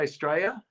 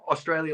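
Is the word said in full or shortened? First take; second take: shortened; full. First: The word is clipped to two syllables, Straya. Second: The word is said in full, all syllables. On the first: This is the slang way many Australians say it. "a lot of people just say Australia. You know, just like S T R A Y A" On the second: This is the standard way Americans say it. "like an American would say it"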